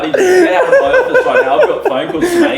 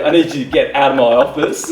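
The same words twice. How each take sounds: First: Very high, loud squeal through laughter; hammed-up indignation. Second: Louder, slightly raised self-important order; mock stern demand. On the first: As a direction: shriek the demand, cracking up. Repeats demand, hammed up, laughing. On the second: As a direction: act the indignant office boss. First take of retold demand.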